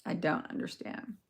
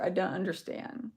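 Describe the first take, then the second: First: Whispered. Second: Said in the usual way. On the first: Real, not acted.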